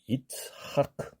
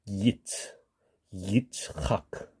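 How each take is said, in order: First: The name begins with a plain 'i' vowel. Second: The name begins with a 'y' glide sound. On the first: The speaker calls it wrong. "I로 만약에 발음한다면" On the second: The speaker calls it right. "거기를 Y로 바꾸게 되면"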